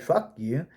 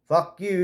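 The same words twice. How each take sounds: First: It is said in a warm, loving tone. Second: It is said in a harsh, hostile tone. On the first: I love you. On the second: It is a real insult.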